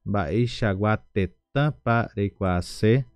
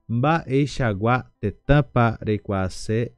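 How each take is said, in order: Both takes have the same delivery.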